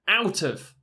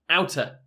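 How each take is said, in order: First: The word of is said in full. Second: The word of is reduced to a.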